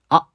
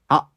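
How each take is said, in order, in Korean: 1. 성문 파열음 때문에 모음이 갑자기 끊깁니다. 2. 성문 파열음 때문에 모음이 갑자기 끊깁니다.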